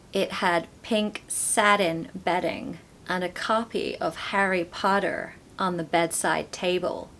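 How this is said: It is spoken in an American accent. "with an American accent"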